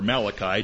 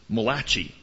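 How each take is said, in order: First: The name is said with a non-Italian pronunciation. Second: The name is said with an Italian pronunciation. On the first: "or not" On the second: "depending on if you're Italian"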